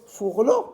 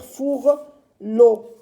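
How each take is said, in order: First: "Fourlot" run together, rising as a question; doubtful rising "Fourlot", no gap; questioning joined-up word. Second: "fourlot" split as "four", pause, "lot"; drawn-out "four", separate "lot"; syllable by syllable. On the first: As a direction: query "Fourlot" as one quick word. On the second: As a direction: slowly try "four... lot" in two beats. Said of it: "on peut pas dire". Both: Shown as a demonstration.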